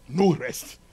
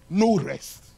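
No difference in how they are said.

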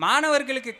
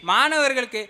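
Both takes have the same delivery.

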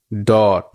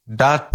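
First: "ডট" with a rounded o vowel; British pronunciation. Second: "ডাট" with an open ah vowel; American pronunciation. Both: Shown as a demonstration. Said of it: "American আর British".

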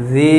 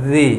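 First: জি with a long held ee; stretched vowel. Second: জি with a short i; short vowel. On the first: Teacher showing madd, long জি. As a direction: draw out জি. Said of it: "একালি পরিমাণ টান হবে". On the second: Teacher showing harakat, short জি. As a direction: cut জি off quickly. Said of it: "টান হবে না". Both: Shown as a demonstration.

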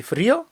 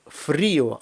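First: Фріо rising onto stressed о; unsplit diphthong. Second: Фріо slowly, stress on і; split diphthong. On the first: Teacher shows what to avoid, diphthong merged. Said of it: "дифтонг треба розбити". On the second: Teacher shows the wanted form, vowels split. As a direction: break фріо into stressed і and separate о. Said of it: "Так от, щоб було". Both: Shown as a demonstration.

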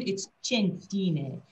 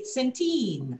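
First: Centine said slowly as chen-TEE-neh with a ch; Italian pronunciation. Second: Put-on centine with a hard s, sen-TEEN, English style; common mispronunciation. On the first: Correcting the name slowly, the Italian way. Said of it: "No, in Italian". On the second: Showing how a lot of people say the name wrongly. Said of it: "a lot of people say". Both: Shown as a demonstration.

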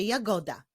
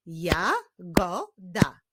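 First: Said in the usual way. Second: "Jagoda" as ja, go, da with pauses; "Jagoda" slowly, syllable by syllable; split into syllables. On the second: Shown as a demonstration. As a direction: clap out "Jagoda" in three slow beats. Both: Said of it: "Tym razem wyklaszczmy".

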